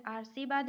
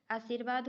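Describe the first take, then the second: First: आशीर्वाद misspoken as aar-see-vaad; no r before the "vaad" of आशीर्वाद; wrong form. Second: आशीर्वाद as aa-seer-vaad; r after the i of आशीर्वाद; correct form. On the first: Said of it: "आशीर्वाद नहीं होता है". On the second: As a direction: put the r just before "vaad" in आशीर्वाद. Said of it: "आशीर्वाद होता है". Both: Shown as a demonstration.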